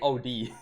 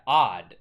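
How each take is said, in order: First: It is spelled out as two separate letters. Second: It is said as one single short word. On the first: The speaker calls it wrong. "I kind of just thought it was like two letters like O D" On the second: The speaker calls it right. "It's actually odd"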